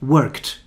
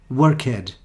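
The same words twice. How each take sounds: First: The ending adds no syllable, one syllable. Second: The ending is an extra syllable, two syllables. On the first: The speaker calls it right. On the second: The speaker calls it wrong.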